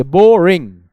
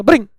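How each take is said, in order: First: बोरिंग as two loud, separate beats; pause between syllables. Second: Boring crammed into one syllable, ब्रिंग; wrongly squashed word. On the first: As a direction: punch out 'bo... ring' for बोरिंग with a gap. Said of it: "आप pause लेंगे". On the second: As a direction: swallow the first vowel, 'bring' for boring. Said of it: "नहीं बोलेंगे". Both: Shown as a demonstration.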